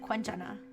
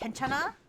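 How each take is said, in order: First: It begins with a k followed by w. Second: It begins with a plain k sound. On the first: This is how the family says it. "like with a with a W" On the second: This is how others say it. "whenever I hear it pronounced like by anybody else"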